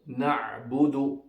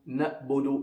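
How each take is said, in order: First: The ain sound is strong, from the throat. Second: The ain sound is weak, not from the throat. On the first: The speaker calls it right. "pronounced from the middle of the throat" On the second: The speaker calls it wrong. "it must not be"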